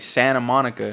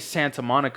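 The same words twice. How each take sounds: First: The T in Santa is left out. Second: The T in Santa is clearly pronounced. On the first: "We say Santa Monica" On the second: "We don't say Santa Monica"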